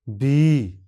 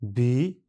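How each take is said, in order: First: बी with the final vowel stretched and louder; extra long vowel. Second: Said in the usual way. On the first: Shown as a demonstration. Teacher contrasts the long बी with the plain one. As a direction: hold the ई of बी long and strong. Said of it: "extra long vowel". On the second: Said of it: "साधारण और extra long vowel दोनों शब्दों को पढ़ते हैं".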